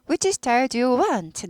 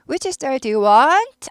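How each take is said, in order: First: The voice falls at the end. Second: The voice rises at the end. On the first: The speaker calls it right. "내려야 됩니다" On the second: The speaker calls it wrong. "아니고"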